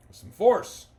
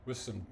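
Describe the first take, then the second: First: "force" shouted high and loud; stress on force. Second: Said in the usual way. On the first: Shown as a demonstration. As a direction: punch "force" hard.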